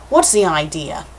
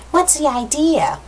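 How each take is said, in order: First: The man's voice, close to the reader's own; male character. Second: High, slow put-on girl voice; girl's voice. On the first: Acted. Line given by mistake to the man who fell, plain male voice. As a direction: read it as the man, not the girl. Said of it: "not him". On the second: Girl knocked to the ground challenges the man, high girly voice. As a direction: pitch it up as an indignant girl. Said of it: "That was the girl".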